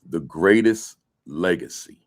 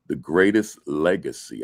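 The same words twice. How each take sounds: First: It is read slowly with added emphasis. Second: It is read at an ordinary pace.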